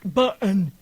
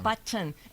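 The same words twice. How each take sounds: First: The T sound in the middle is swallowed. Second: The T sound in the middle is clearly pronounced. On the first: The speaker calls it wrong. "it's not button" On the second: The speaker calls it right. "Pronounce the T's"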